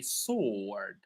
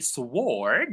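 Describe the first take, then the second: First: The W is silent, with a long O. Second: The W is sounded before the vowel. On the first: The speaker calls it right. "We say sword. Right? It's a long O" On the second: The speaker calls it wrong. "we never say sword"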